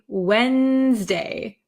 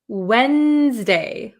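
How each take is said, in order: First: The D sound in the middle is left out. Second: The same.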